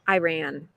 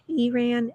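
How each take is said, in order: First: The first vowel sounds like 'eye'. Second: The first vowel sounds like 'ee'. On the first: This is how it is commonly said in the United States. "in the United States, you will hear it pronounced as I" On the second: This is how it is said locally. "I understand that that's how it's pronounced"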